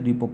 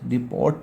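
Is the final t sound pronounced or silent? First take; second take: silent; pronounced. First: The word ends without a t sound. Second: The word ends with a t sound. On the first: The speaker calls it right. "टी silent से डिपो पढ़ते हैं" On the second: The speaker calls it wrong. "डिपोट नहीं पढ़ते"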